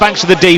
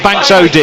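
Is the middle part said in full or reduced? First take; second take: full; reduced. First: The middle is said fully as 'of the'. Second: The middle is shortened to a single 'o'. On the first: The speaker calls it wrong. "Not Banks of the D" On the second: The speaker calls it right.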